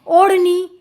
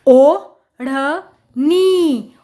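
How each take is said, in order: First: Said in the usual way. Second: ओ, ढ़, नी very slowly with gaps; syllable by syllable. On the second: Shown as a demonstration. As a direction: sound out ओ … ढ़ … नी piece by piece. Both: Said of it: "जोड़कर पढ़ेंगे".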